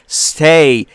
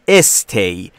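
First: It starts directly with the s sound. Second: An extra vowel is added before the s. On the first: The speaker calls it right. "مثل stay" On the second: The speaker calls it wrong. "رایجه که گفته میشه stay"

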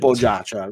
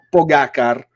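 First: The c sounds soft and heavily drawn out. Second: The c in the name sounds hard. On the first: "con la C dolce, però poi ha esagerato" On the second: "prima diceva Po- Pogacar"

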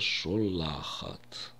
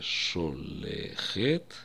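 First: The last two vowels are a and a. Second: The last two vowels are e and e. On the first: The speaker calls it right. "а мы произнесем слово «шолахат»" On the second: The speaker calls it wrong. "слово мы произнесем не «шолехет»"

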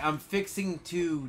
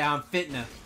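First: The phrase is said in full, every syllable. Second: The phrase is squeezed into one short word. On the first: This is how people elsewhere say it. "people will say like" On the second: This is how people in the South say it. "not in the South. Nah, we say"

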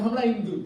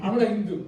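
Both takes have the same delivery.

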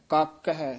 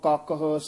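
First: The word ends with a separate 'hai' syllable. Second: The word ends in an attached short 'ah' sound. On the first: The speaker calls it wrong. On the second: The speaker calls it right.

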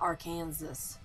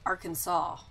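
First: The final S is pronounced. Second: The final S is silent. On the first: The speaker calls it wrong. "Not Arkansas" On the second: The speaker calls it right. "the majority of the population of the U.S., I think, says Arkansas"

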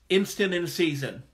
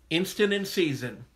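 The two takes are said the same way.

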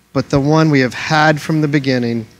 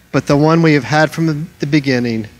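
The two takes are said the same way.

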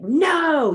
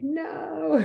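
First: It sounds angry and mad. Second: It sounds withdrawn and hiding.

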